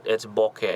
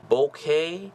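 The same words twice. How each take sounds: First: Said in the usual way. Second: BOKEH as BOH-kay, higher, rising at the end; unsure pronunciation. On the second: Shown as a demonstration. Presenter trying another variant for viewers, unsure pronunciation. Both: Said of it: "I don't know how to pronounce it".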